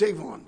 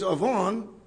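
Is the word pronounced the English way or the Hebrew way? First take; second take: English; Hebrew. First: The word has an English pronunciation. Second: The word has a Hebrew pronunciation. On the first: "if you want to do it in English, it's Avon" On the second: "the root word there is Avon"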